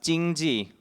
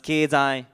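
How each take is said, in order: First: The word is pronounced the Mandarin way. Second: The word is pronounced the Japanese way. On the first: "it's pronounced 经济 in Mandarin" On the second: "It's pronounced 経済 in Japanese"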